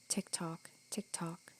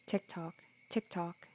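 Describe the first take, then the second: First: Soft unvoiced whisper; whispered tick-tock. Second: Much softer, slow drawn-out whisper; slow whispered tick-tock. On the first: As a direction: whisper each tick like the clock. Clock counting between apologies. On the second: Acted. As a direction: let the ticks stretch out slowly. Clock counting, slowing down.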